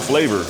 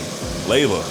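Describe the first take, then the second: First: The word ends in an 'or' sound. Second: The word ends in a plain 'uh' vowel. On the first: The speaker calls it wrong. "not flavor" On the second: The speaker calls it right. "not with an O R, but with an A"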